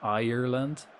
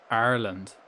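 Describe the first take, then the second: First: Ireland said eye-er-land with a rise; imitating Ireland as eye-er-land; three-syllable Ireland. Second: Ireland said ar-land, two syllables; Irish Ireland. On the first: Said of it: "relatives pronounce it like that". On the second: Shown as a demonstration. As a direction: say Ireland as ar-lend. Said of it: "only two syllables".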